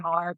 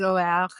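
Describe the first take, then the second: First: The surname is pronounced the English way. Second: The surname is pronounced the French way. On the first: "I say" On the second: "the French pronunciation is"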